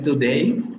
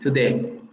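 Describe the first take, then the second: First: The final vowel glides as a diphthong. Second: The final vowel is a single steady vowel. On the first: This is the standard pronunciation. "No voy a decir today" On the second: This is the Geordie pronunciation. "También se deshace el diptongo ahí"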